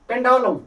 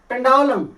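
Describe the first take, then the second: Both takes have the same delivery.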